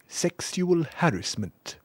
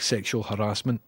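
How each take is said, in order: First: It is said in a posh English way. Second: It is said in a plain, ordinary way. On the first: "Sort of voice that would say" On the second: "instead of"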